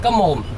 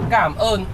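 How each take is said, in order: First: It is said like the English words come on. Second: It is said with native Vietnamese pronunciation. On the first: It sounds like a phrase meaning shut up. The speaker calls it wrong. "a lot of Western people, they speak it different way" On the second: It means thank you. The speaker calls it right. "the correct way to say thank you in Vietnam"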